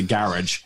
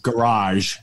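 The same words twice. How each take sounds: First: Garage said the Irish way, stress on the first part, "garrij"; "garage" rhymed with carriage. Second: Garage said the American way, stress on the second part; "garage" as an American says it. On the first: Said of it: "I have to say garage". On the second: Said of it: "I can't say the word garage". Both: Shown as a demonstration.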